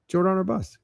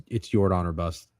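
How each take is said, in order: First: "Jordan or bust" said again higher, with a firm fall on "bust"; "bust" landing hard and final; emphatic repeat. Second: Said in the usual way. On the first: Shown as a demonstration. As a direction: punch it as a rallying call, "Jordan or bust".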